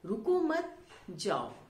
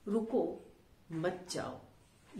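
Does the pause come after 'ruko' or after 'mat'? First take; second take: after mat; after ruko. First: There is a pause right after 'mat'. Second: There is a pause right after 'ruko'. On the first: The listener is told not to stay but to leave. "दूसरे वाक्य में कहा जा रहा है कि ना रुको जाओ" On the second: The listener is told to stay and not leave. "पहले वाक्य में कहा गया रुको, रुकने के लिए कहा जा रहा है और नहीं जाने के लिए"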